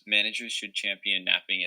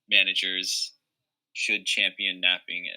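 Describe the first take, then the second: First: There is no pause after managers. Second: There is a pause after managers. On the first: The speaker calls it right. "no pause" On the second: The speaker calls it wrong. "that pause with the comma"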